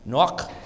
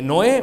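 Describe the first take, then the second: First: The name ends with a strong, harsh throat sound. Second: The name ends softly on a vowel.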